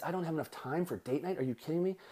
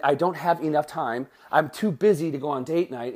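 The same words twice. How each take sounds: First: Quiet, disbelieving echo of time for date night; incredulous. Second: Said in the usual way. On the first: Shown as a demonstration. Coach mocking a client's excuse, quietly incredulous. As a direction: drop the voice, mock disbelief at the excuse. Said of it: "it means". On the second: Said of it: "So instead of saying".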